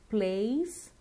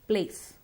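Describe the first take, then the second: First: The vowel is long and glides. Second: The vowel is short without a glide. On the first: The speaker calls it right. "Remember to stretch the sound" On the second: The speaker calls it wrong. "It's too short"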